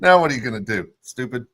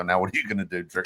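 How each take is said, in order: First: Louder, punchier mocking jab; mean taunt. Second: Low, quiet mocking taunt; a sly teasing jab, kept low. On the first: Friend gloating at the hurt guy, louder mean taunt. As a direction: rub it in harder. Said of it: "God, that's so mean". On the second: Friend gloating at the hurt guy, low mock taunt. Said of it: "and I'd leave and just go".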